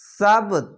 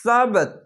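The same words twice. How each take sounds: First: সাবত ending with a bouncing stopped ত; qalqala bounce. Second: সাবত with the final ত bounced, a bit higher; qalqala bounce. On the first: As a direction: clip the final ত of সাবত with a little echo. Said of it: "কলকলা নিচে আসবে". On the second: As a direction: hit সাবত and let the last consonant rebound. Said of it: "এরকম হবে". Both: Shown as a demonstration.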